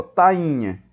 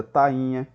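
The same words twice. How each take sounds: First: Tainha slowed, with the i held apart from the a; stressed hiatus. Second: Said in the usual way. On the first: Shown as a demonstration. Teacher asking students to observe the hiatus, tainha slow with stressed i. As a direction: say ta-i-nha slowly, leaning on the i of tainha. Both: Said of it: "o I forma um hiato com A".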